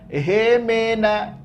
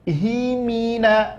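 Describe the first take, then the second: First: The vowels are vague E sounds. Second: The vowels are clear I sounds. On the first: The speaker calls it wrong. "Jangan ehemena" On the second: The speaker calls it right. "Mimnya baris bawah, haknya baris bawah. Ingat, jelaskan"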